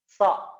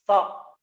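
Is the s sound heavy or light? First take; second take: light; light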